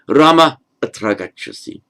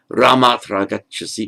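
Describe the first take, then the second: First: The first word is followed by a pause. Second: The first word runs straight into the next. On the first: The speaker calls it right. "treated as a slightly separate utterance with a pause" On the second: The speaker calls it wrong. "Or Rama tragachasi, no"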